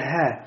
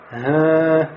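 First: The sound is breathy with no nasal hum. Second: The sound has a nasal hum added. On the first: The speaker calls it right. "в конце вот это ха" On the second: The speaker calls it wrong. "«ха» нельзя говорить, да, «га»"

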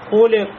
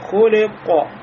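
First: The final consonant is barely heard, with no release. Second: The final consonant ends with a slight echoing bounce. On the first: The speaker calls it wrong. "Если я сказал хули, хули, то есть вот эта ков, она не слышится" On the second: The speaker calls it right. "Когда мы добавляем халь-халя, она становится хули-ко"

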